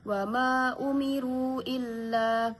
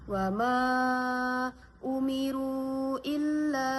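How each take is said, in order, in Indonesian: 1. Vokal panjang itu dibaca dua harakat. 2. Vokal panjang itu dibaca empat harakat. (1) "dibaca dua harokat" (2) "Bisa juga dibaca dengan empat harokat"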